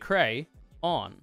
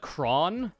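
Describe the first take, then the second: First: The word is said as two syllables. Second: The word is said as one syllable. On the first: The speaker calls it right. "It has to be cray, on" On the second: The speaker calls it wrong. "That would be one syllable though"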